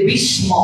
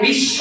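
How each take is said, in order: First: It is pronounced the Sanskrit way, with a dental s. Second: It is pronounced the Bengali way, with a sh sound. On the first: "সংস্কৃতে বিস্ম" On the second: "বাংলায় বিশ্ব"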